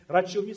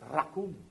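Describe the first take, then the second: First: The middle consonant is a 'ch' sound. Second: The middle consonant is a hard 'k' sound. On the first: The speaker calls it wrong. "you don't pronounce it Rachum" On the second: The speaker calls it right. "C-H is pronounced as K"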